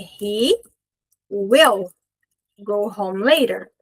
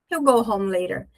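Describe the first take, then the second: First: The word will is pronounced in full. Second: Will is contracted to a final L sound.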